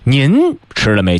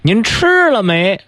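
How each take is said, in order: First: The stress is on 您. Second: The stress is on 吃.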